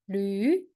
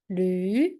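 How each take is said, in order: First: The pitch rises from mid to high. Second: The same.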